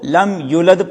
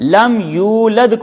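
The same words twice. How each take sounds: First: The 'yu' vowel is cut short. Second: The 'yu' vowel is held long. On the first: The speaker calls it wrong. "उसको यूलद जल्दी पढ़ दिया" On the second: The speaker calls it right. "अब यू को लंबा करना था"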